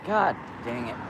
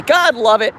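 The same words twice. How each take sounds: First: Soft frustrated mutter under breath; quiet annoyed mutter; muttered curse. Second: Said in the usual way. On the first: Real, not acted. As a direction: grumble it much softer. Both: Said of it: "Or sorry, God love it".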